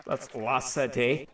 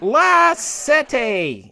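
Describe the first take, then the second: First: Low, soft, slow "La Sette"; muttered aside. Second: "La Sette" stretched out slowly; showy Italian pronunciation. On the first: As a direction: drop "La Sette" in as a quiet aside. Aside repeating the channel name. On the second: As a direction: draw out "La Sette" with relish. Shows off Italian channel name. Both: Shown as a demonstration.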